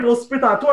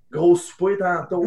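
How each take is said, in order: First: Higher, brighter retake of the pickup line; amused, pleased-with-himself retelling; cheeky line, laughing. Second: Slow, sly pickup line; a hint of a would-be charmer; cheeky line. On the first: Retold or imitated. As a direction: toss the line out with a grin in the voice. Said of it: "je fais, ouais". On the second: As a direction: drop the line slowly like a smooth flirt. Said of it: "une petite réplique".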